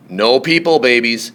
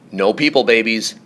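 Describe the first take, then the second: No difference in how they are said.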